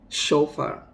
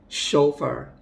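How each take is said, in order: The two takes are said the same way.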